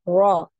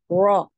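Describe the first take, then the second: The two takes are said the same way.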